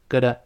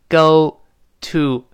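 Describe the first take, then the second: First: It is quick, with a soft t and weak vowels. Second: Each word is said fully and separately. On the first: "读快了之后会弱化，中间那个t 轻轻的浊化成的，那两个o u 都弱化成a" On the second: "是单独读"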